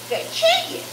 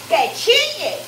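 First: A much higher, delighted squeal; squealed cry. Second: Cheering the sizzle on; a glad call to the pan; excited cry. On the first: Cheering the sizzling pan. (chillido agudo de alegría) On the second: (grito alegre) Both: Real, not acted.

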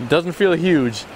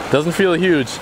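The two takes are said the same way.

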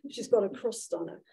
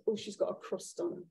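First: Said in the usual way. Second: Quietly voiced, under the breath; hushed aside. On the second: Woman remarking on a departing rude woman, hushed aside. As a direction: mutter it like gossip behind her back.

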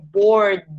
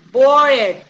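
First: Bored in one syllable, R straight into D; bored without E. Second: Bored in two syllables, bor-ed, voicing the E; bored with E pronounced. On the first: Shown as a demonstration. Teacher correcting the class, bored with silent E. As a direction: drop the E in bored. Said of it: "como si esa E no estuviera". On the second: Teacher repeating a student's mistake, bored with E pronounced. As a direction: say bored with the E sounded, louder. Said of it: "Lauri dijo".

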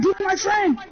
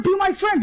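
First: Said in the usual way. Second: Shouted plea. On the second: Acted.

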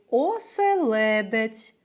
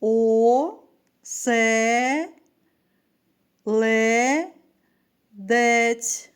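First: Said in the usual way. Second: «о-се-ле-дець» very slow, each syllable held with a pause. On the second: Shown as a demonstration. Teacher counting syllables with pupils, «о-се-ле-дець» split slowly. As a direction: chant «о-се-ле-дець» as separate long syllables. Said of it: "Разом вимовимо".

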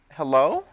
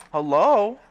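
First: A loud, rising "Hello?" thrown at the neighbour; calling out. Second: A higher, louder "Hello?" that falls at the end; insistent call. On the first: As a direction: call "Hello?" loudly, going up. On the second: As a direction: call "Hello?" again, high and loud, falling. Calling out again, more insistent. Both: Real, not acted.

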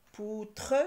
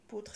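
First: "Poutre" split into "pou" and "tre"; deliberate two-beat "Poutre"; syllable by syllable. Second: Said in the usual way. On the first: Shown as a demonstration. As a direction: hold "pou", then sound a full "tre". Teacher trying out syllables.

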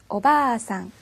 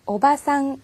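First: 오바상 with the first 바 held for two beats; long vowel. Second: Said in the usual way. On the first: Shown as a demonstration. Teacher models the long-vowel version to the class, slowly. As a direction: stretch the 바 in 오바상 a little slower. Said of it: "있으면". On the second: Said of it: "없으면".

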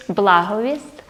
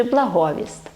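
First: Благовість stressed on "бла", BLA-ho-vist; first-syllable stress. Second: Благовість stressed on "го", bla-HO-vist; second-syllable stress. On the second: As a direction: hit the middle syllable of благовість. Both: Shown as a demonstration. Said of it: "є ці наголоси".

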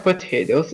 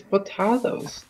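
First: "potatoes" said po-TAY-toes. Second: "potatoes" said po-TAH-toes. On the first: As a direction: say "potatoes" with a long ay in the middle. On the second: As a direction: say "potatoes" with a broad ah in the middle. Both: Shown as a demonstration. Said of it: "It's not potatoes, it's potatoes".

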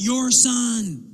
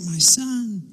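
First: Put-on "Your" hit high, pushing the child onto the spouse; annoyed disowning. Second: Put-on "My" stressed, claiming the child; a parent taking credit, leaning on "My"; proud claiming. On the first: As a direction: stress "Your" as an angry parent passing blame. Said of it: "you're angry with them". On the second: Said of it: "when they're doing something good".

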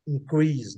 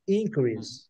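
First: InCREASE, stressed at the end; increase with strong second syllable; verb stress, last syllable. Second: INcrease, stressed at the start; increase with strong first syllable; noun stress, first syllable. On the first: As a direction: say increase as a verb, weight on CREASE. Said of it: "quando você vai falar que". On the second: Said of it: "o aumento". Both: Shown as a demonstration.

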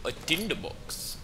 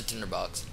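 First: Put-on slow, higher accented voice, Indian-sounding; botched British accent that drifts toward Indian; badly faked British, Indian-like lilt; British accent attempt sounding Indian. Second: Said in the usual way. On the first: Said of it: "Sound fucking Indian".

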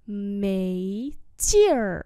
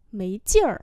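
First: Two stretched syllables; slow model for learners; slow demonstration. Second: Said in the usual way. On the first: Shown as a demonstration. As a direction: draw out both tones. Teacher repeats phrase slowly.

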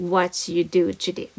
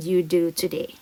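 First: Slow, drawn-out teacher read; slow model reading. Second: Said in the usual way. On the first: Shown as a demonstration. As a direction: read it out slowly for the class. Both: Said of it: "tell us".

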